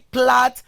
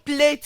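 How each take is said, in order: First: The vowel is the short a sound. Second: The vowel is not the short a sound. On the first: The speaker calls it right. "you actually plait your hair" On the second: The speaker calls it wrong. "you don't plait your hair"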